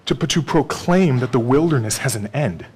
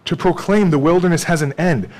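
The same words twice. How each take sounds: First: Said in the usual way. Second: "proclaim" pushed higher and louder; preacher repeating the point with force; emphatic repeat. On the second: Shown as a demonstration. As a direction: drive "proclaim" home. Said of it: "repeated for emphasis".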